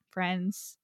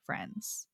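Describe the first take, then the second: First: Said in the usual way. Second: Friends breathed out, voice dropped to a whisper. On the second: Shown as a demonstration. Host echoing the word friends as a whispered aside. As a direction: let friends fall away into a whisper.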